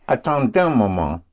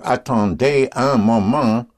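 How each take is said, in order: First: The 'un' shrinks to a linked n sound. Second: The 'un' is said as a full separate word. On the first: "what you will hear is" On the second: "instead of saying"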